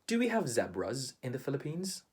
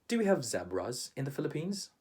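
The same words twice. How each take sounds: Both takes have the same delivery.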